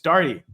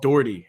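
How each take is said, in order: First: The name is said as Darty. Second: The name is said as Doherty. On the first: This is how the family says the name. The speaker calls it right. "It's Darty, folks" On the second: This is how other people say the name. The speaker calls it wrong. "a Darty who's called Doherty"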